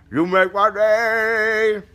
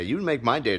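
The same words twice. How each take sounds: First: High, loud yell with stretched words; slow, high-pitched mock holler; hammed-up shout. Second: Said in the usual way. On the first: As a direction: belt out the catchphrase, dragging it out. Hammed-up repeat of requested catchphrase.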